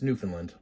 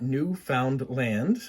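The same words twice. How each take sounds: First: It is said smoothly as one joined word. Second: It is broken into three separate spoken parts. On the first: The speaker calls it right. "It's Newfoundland" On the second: The speaker calls it wrong. "is not Newfoundland. It's not three separate words"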